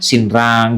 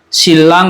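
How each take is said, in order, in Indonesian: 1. Konsonan tengahnya terdengar seperti N lalu R. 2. Konsonan tengahnya terdengar seperti L ganda.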